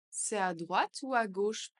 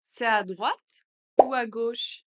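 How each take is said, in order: First: Said in the usual way. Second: Louder, slower question. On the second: Shown as a demonstration. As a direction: ask it out loud, slowly. (plus fort et lent) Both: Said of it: "phrase modelled twice".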